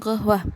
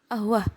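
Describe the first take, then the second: First: The word begins with a hard g sound. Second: The word begins with a glottal stop. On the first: This is the Saudi dialect form. "dalam dialek Saudi, huruf qaf diungkapkan g" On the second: This is the Egyptian dialect form. "dalam dialek Mesir, ... diungkapkan menjadi ahwah"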